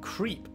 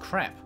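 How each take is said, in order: First: The vowel is a long ee sound. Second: The vowel is a short e sound. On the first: The speaker calls it wrong. "They're pronouncing them creep" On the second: The speaker calls it right. "It's crepe"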